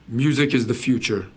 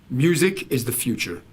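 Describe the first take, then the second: No difference in how they are said.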